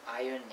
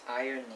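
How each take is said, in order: No difference in how they are said.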